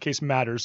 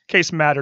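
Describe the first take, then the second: First: The surname ends with an s sound. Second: The surname ends without an s sound. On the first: The speaker calls it wrong. "not Case Matters. So I apologize for giving you the extra S" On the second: The speaker calls it right. "It's Case Matter"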